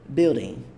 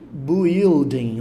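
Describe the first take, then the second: First: The first syllable has only an 'i' vowel. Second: The first syllable has a 'u' before the 'i'. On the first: The speaker calls it right. "Ela é falada como se fosse só um i aqui" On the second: The speaker calls it wrong. "ela não é falada building ou coisa do tipo"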